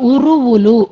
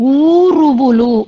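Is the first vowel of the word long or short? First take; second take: short; long. First: The first vowel is cut short. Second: The first vowel is held long. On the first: The speaker calls it wrong. "ఉరువులు అన్నట్టు వినిపించింది" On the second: The speaker calls it right. "ఊరువులు అన్న చోట"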